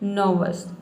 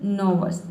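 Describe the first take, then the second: The two takes are said the same way.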